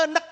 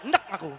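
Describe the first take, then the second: First: "enek" with the first E audibly sounded. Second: "enek" as 'ndek, first vowel dropped; swallowed E. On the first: Teacher showing the vowel is there, fully sounded. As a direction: separate the opening schwa in "enek". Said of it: "Tapi itu enek kan gitu". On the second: Teacher showing how people really say it, vowel swallowed. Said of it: "kayak nggak kelihatan ya". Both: Shown as a demonstration.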